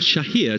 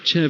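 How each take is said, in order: First: The surname is said in its original pronunciation. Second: The surname is said in an anglicized pronunciation. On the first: This is how the name is properly said. "to give him his proper pronunciation" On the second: This is how locals usually say the name. "very much the accepted way of saying his surname in these parts"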